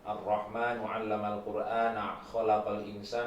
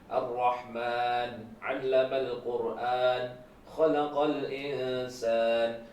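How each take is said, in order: First: It is recited at a fast pace. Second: It is recited at a moderate pace. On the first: "bacaan yang cepat" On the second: "Berarti agak pelan"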